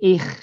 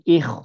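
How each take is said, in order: First: The kh sound is thin and light. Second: The kh sound is thick and heavy. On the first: The speaker calls it wrong. "Ini bukan ikh" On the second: The speaker calls it right. "tapi ikh ditebalkan"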